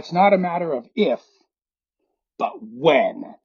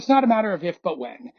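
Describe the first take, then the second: First: A dramatic pause comes before "but when." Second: It runs straight on without a pause. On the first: The speaker pretends the line is profound and original. The speaker calls it wrong. "they take a pause when they say" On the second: The speaker treats the line as a familiar saying. The speaker calls it right. "You don't have to take a pause there. ... You can just go"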